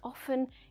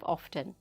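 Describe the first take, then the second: First: The t sound is left out. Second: The t sound is clearly pronounced.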